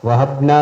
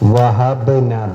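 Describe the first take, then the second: First: The b sound is not bounced or echoed. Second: The b sound is clearly bounced and echoed. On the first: The speaker calls it wrong. "വഹബ്ന എന്നല്ല" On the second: The speaker calls it right. "വഹബ്ന ബ് എന്ന് തന്നെ ഉച്ചരിക്കണം"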